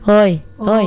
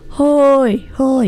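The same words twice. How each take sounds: First: The shout is short and clipped. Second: The shout is long and drawn out.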